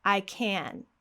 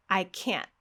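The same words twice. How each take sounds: First: "can" with full vowel, N left to ring; "I can" ending open on a held N; no final T. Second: "can't" stopped short in the throat; "I can't" with the T unreleased; glottal-stop T. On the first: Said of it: "the only thing that's different is this T at the end". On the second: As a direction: end "can't" with a sharp stop of air. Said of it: "that sharp stop of air". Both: Shown as a demonstration.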